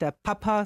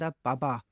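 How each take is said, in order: First: The word has hard P sounds. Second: The word has softened B sounds.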